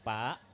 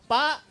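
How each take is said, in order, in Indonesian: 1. Panggilan itu diucapkan pelan dan lembut. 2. Panggilan itu diucapkan keras dan tegas. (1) "Kita panggilnya jangan pelan-pelan" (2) "pertama kita panggil dengan keras, suara lantang"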